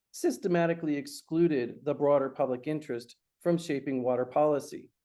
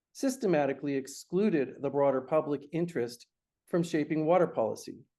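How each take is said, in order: The two takes are said the same way.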